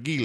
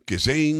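First: GHISLAINE as "gee-LANE", teasingly French; mock-French silent S. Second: GHISLAINE as "giz-LANE", S sounded. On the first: Host teases co-host's French "Ghislaine", S silent. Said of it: "sound like you're getting French". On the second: Shown as a demonstration. Host asks how to say "Ghislaine", trying "giz-lane". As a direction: try "Ghislaine" with a hard G and a Z. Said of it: "how are you saying her name".

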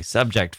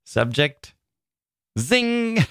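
First: Said in the usual way. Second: "Zing" rung out high after "Subject"; exclamation-mark reading. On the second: Shown as a demonstration. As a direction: leap high on "Zing" and hold it. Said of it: "That's how I hear it in my head".

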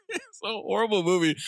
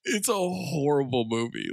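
First: Higher, laughing-edged restatement; worked-up repeat. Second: Said in the usual way. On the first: Real, not acted. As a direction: push it up, amused and worked up.

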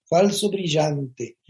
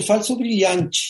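First: Said in the usual way. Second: Brazilian Portuguese accent. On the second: Shown as a demonstration. Naming [name]'s show as Brazilians do, Brazilian accent. Original title in Portuguese, then translated.

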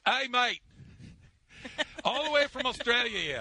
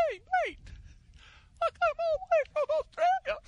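First: High, louder Australian accent attempt; a self-confessed bad Australian accent. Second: Put-on very high, squeaky Australian accent as Messi; a tiny, strangled Australian voice that sounds like drowning. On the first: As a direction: try on an Australian accent, hammed up a bit. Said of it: "I am gonna try it". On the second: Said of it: "That's Messi if he were Australian".

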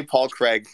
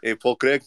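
First: Said in the usual way. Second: Put-on Scottish accent with "Craig" as "Crig". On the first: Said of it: "I can say Paul Craig". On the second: Shown as a demonstration. Co-host demonstrates his one Scottish phrase, in a Scottish accent. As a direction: say "Paul Craig" like a mock Scot. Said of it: "has my Scottish accent".

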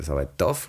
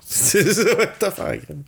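First: Said in the usual way. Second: Laughing it out, much higher. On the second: Real, not acted. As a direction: laugh through the words. Repeats it laughing.

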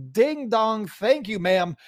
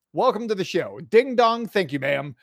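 First: Belted-out broadcaster call; home run call. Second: Punchy broadcaster call, falling off; home run call. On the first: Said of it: "That, that's gonna be a new catchphrase". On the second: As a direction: announce it like a homer just left the yard. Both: Acted.

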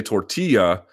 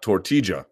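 First: Y glide in the LL of tortilla; double L as Y. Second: Tortilla with the LL as an English J; hard J sound in the LL of tortilla; double L as J. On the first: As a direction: say tortilla as "tor-TEE-ya". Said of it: "passionate about the double L's in Spanish". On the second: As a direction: say tortilla as "tor-TEE-ja". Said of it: "not tortilla". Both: Shown as a demonstration.

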